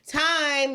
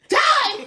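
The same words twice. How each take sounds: First: The word is said a little louder than normal. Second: The word is said sharply and aggressively. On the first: Someone needs to hear it over noise. "raise your voice a little bit" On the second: It startles the people it is aimed at. "very aggressive with time"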